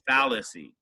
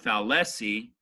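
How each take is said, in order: First: The stress is on the first syllable. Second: The stress is not on the first syllable. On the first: The speaker calls it right. "It's fallacy. accent mark on the first syllable" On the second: The speaker calls it wrong. "It's not fallacy"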